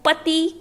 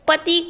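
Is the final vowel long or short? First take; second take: long; short. First: The final vowel is long. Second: The final vowel is short. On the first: The speaker calls it wrong. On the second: The speaker calls it right.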